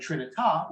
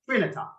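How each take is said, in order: First: It is said with the Italian pronunciation. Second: It is said with the Latin pronunciation. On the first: The speaker calls it wrong. "which is the Italian pronunciation" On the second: The speaker calls it right. "which is the Latin pronunciation"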